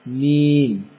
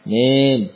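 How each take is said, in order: First: The i vowel is fully and clearly formed. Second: The i vowel is only partly formed. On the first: The speaker calls it right. "bagaimana menyempurnakan kasrah? Terapkan di sini" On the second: The speaker calls it wrong. "Jangan mim, ya, ini belum sempurna"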